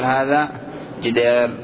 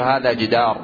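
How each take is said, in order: First: The long vowel is tilted toward 'i'. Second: The long vowel is a plain open 'a'. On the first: The speaker calls it wrong. "ولا يجوز أن تقول هذا جدار تميل" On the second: The speaker calls it right. "فتقول هذا جدار"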